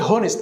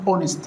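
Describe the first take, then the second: First: The word begins with an h sound. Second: The word begins with a vowel sound. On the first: The speaker calls it wrong. "ما تقولش هونست" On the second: The speaker calls it right. "الاو هي اللي منطوقه"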